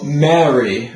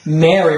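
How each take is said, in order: First: MARY with a long, open "eh-ah" vowel; Mary, tall British-like vowel; full singer's vowel. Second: MARY with an everyday wide "air" vowel; Mary, spoken vowel, not rounded out. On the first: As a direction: round out the first vowel of Mary, like "marry". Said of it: "getting a very full sounding vowel". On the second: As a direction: say Mary as in ordinary American speech. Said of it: "we actually want to have a different vowel sound". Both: Shown as a demonstration.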